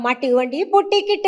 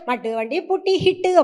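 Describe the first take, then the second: First: The last word begins with a k sound. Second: The last word begins with an h sound. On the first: The speaker calls it right. "கா" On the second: The speaker calls it wrong. "அப்டிம்பேன் நானு"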